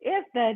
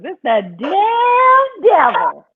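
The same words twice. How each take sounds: First: Said in the usual way. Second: Put-on high, slow old granny voice. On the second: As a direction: draw it out like an old grandma. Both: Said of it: "I'm gonna say it like my granny does".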